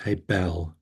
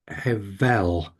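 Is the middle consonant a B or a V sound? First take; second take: B; V. First: The middle consonant is a B sound. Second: The middle consonant is a V sound. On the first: This is the ancient pronunciation. "Bible times and Middle Ages times ... it was hebel" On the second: This is the modern Hebrew pronunciation. "modern day Hebrew language, it's hevel, because the ancient B has become a V"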